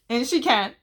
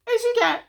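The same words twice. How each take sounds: First: Said in the usual way. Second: Much higher, punched repeat; squeaky emphatic echo. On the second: Real, not acted. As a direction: shoot way up to hammer it home.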